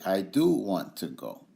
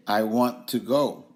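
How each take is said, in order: First: "do" pressed firmly, the rest even; stress on do. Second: Said in the usual way. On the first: Shown as a demonstration. Teacher showing students how to stress "do". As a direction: lean into the word "do" to affirm it. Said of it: "Affirmative emphasis is when you say". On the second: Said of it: "Regular statement is when you say".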